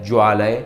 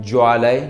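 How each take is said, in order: The two takes are said the same way.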